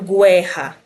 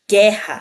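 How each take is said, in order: First: A U sound is pronounced after the G. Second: No U sound is pronounced after the G. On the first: The speaker calls it wrong. "Também não falo guerra" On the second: The speaker calls it right. "Eu falo guerra"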